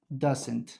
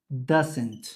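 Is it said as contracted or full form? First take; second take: contracted; contracted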